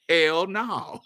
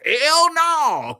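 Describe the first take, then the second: First: It is said in a put-on character voice. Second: It is said in the speaker's own natural voice.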